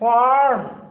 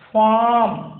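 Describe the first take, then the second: First: The R is pronounced, American style. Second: The R is silent, British style.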